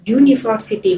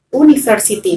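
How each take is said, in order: First: The word begins with a 'y' sound. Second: The word begins with a plain vowel sound. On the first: The speaker calls it right. "huruf depannya itu bunyinya adalah y" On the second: The speaker calls it wrong.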